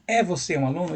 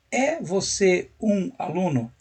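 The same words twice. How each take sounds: First: A real question whose pitch rises on "aluno"; rising question. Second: Slow, deliberate, tune falls at the end; slow falling question. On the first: Teacher repeats the literal translation for students, rising question tune. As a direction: ask "É você um aluno?" with the voice lifting at the end. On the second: Teacher mimics a literal translation for students, slow falling question. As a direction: spell out "É você um aluno?" slowly, dropping the pitch on "aluno". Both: Shown as a demonstration. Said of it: "É como se você falasse assim".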